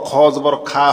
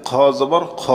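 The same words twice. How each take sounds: First: খা said with an open "aa" vowel; quick mistaken reading with খা as "khaa"; wrong vowel demo. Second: Final খ said with a rounded "aw" vowel; correct vowel demo. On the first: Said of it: "খ জবর খা হয় না". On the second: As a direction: end on "khaw" in খ, never "khaa". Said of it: "কি হয়েছে?". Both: Shown as a demonstration.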